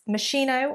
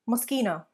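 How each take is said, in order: First: The middle consonant is said as sh. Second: The middle consonant is said as sk. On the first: The speaker calls it wrong. "It is not Moschino or Moschino" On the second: The speaker calls it right. "pronounced as a sk rather than a sh or ch sound"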